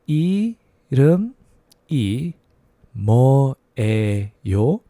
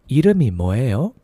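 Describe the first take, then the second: First: It is said slowly. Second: It is said fast.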